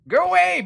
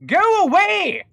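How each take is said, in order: First: High, loud scared yelp; panicked shout. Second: Hammed-up old-timey gentleman, much higher and louder; 1800s inventor voice. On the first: Real, not acted. Shooing monster in game. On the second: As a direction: shoo it off like an indignant robber baron. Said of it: "I'm stuck in the accent".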